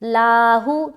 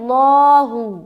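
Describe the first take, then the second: First: The L sound is light and thin. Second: The L sound is full and heavy. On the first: The speaker calls it wrong. "लाहू तो बारीक हो गया" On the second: The speaker calls it right. "लाहू नहीं पढ़ना बल्कि लहू"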